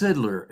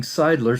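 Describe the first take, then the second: First: Sidler with a short i, as in "sid"; "Sidler" pronounced SID-ler; correct name pronunciation. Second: Seidler with a long i, as in "side"; "Seidler" pronounced SIDE-ler; mispronounced name. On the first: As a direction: say "Sidler" with first syllable rhyming with "kid". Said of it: "the name is pronounced Sidler". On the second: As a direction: say "Seidler" with first syllable rhyming with "ride". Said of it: "pronouncing it wrong". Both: Shown as a demonstration.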